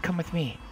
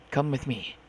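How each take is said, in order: First: Mildly unhinged insistence; edge of insanity. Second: Said in the usual way. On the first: Acted. Captor orders a child along, a touch of insanity. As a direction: repeat the order with a slightly crazed edge. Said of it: "There was an edge of insanity to his voice now". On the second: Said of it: "edge of insanity to his voice now".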